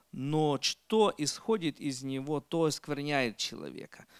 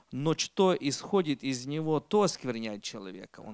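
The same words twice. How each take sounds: Both takes have the same delivery.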